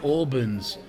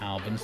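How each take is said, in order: First: The first vowel is a long aw sound. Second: The first vowel is a short flat a. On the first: This is the English way of saying it. "Because the Albans would be A-U" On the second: This is a non-English way of saying it. "my partner's going to have a go at me for calling it Albans"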